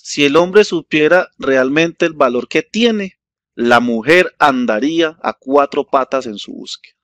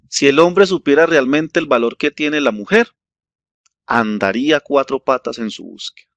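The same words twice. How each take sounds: First: The pause comes after the word tiene. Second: The pause comes after the word mujer.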